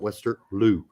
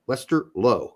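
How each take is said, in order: First: The name ends with an 'oo' vowel. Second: The name ends with an 'oh' vowel. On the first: The speaker calls it wrong. "as Pete calls him, Westerloo, even though there's not two O's" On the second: The speaker calls it right. "One O is O sound"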